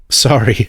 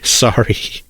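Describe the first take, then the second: First: Said in the usual way. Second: Breathy laugh through sorry. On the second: A narrator's reading. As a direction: apologize while still laughing. Chase still laughing after outburst.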